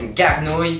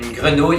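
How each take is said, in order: First: It is said with a heavily exaggerated Québécois accent. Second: It is said with a plain, neutral accent.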